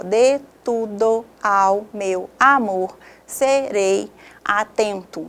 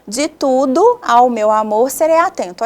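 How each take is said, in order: First: Slow, each grammatical syllable of "de tudo ao meu amor serei atento" said apart; teacher spelling out every grammatical syllable. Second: "tudo ao" run together as one beat, stressed "ten" in "atento"; teacher scanning the verse in poetic syllables; poetic scansion. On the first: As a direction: count out "tu-do-ao" as separate beats, slowly. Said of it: "a divisão por sílabas gramaticais". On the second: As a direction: read it in metre, joining the vowels. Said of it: "Olha só a divisão poética". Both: Shown as a demonstration.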